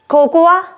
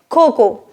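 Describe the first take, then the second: First: An extra vowel sound is heard at the end. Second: The word ends on a plain o sound. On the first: The speaker calls it wrong. "No, it is not the right way" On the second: The speaker calls it right. "The right way to pronounce it is cocoa. Drop letter A"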